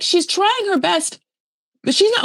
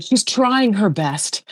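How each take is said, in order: First: Much higher, exaggerated repeat of an excuse; high-pitched mocking. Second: Drawn-out, slow quote in a near-usual pitch; lightly voiced excuse, stretched out slowly; imitating Daniel. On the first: Host mocking an excuse for Lisa, high-pitched. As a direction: push it way up in mock defense. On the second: Daniel excusing his partner to others, lightly imitated. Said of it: "Daniel's like".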